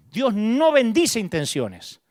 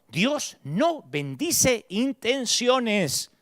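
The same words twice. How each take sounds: First: "bendice" leaned on, slow and firmer; weighted repeat. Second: "Dios no bendice intenciones" drawn out slowly, word by word; slow emphatic. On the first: Preacher repeating the lesson, firm slow stress. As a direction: say it again, slow and stronger. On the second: Preacher to his congregation, slow deliberate emphasis. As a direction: spell it out slowly so it sticks. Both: Shown as a demonstration. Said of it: "quiero que te grabes esto".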